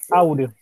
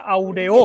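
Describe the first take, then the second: First: The stress is on the first syllable. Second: The stress is on the last syllable. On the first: The speaker calls it right. "Se carga la voz en au" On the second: The speaker calls it wrong. "Si fuera aguda sería aureo"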